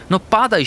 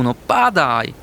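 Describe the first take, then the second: First: High, eager plea to the sky; pleading to the snow. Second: Said in the usual way. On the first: Acted. Little hamster begging the snow to fall, high plea. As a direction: beg the clouds to let go.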